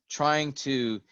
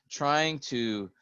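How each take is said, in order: The two takes are said the same way.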